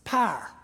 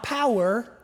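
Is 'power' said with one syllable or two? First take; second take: one; two. First: It is said as one syllable, Southern Ohio style. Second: It is said with two syllables, standard style.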